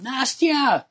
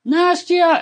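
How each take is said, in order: First: Much higher call down the hall, far away. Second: Much higher and louder yell; yelling name. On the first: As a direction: call her name from down the hallway. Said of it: "I would hear him calling". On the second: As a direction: bellow the name down the hall, insisting. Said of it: "So he would yell". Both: Retold or imitated.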